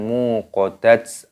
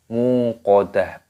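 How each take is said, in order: First: The word ends with a ts sound. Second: The word ends with an h sound. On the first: The speaker calls it wrong. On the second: The speaker calls it right. "tak marbutohnya di sini dimatikan menjadi huruf ha"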